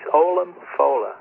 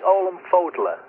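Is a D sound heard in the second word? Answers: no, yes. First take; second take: no; yes. First: No D sound is heard in the second word. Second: A D sound is heard in the second word. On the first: The speaker calls it right. "they don't pronounce the D, so it's Olam Fola" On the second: The speaker calls it wrong. "It looks like Olam Fodla"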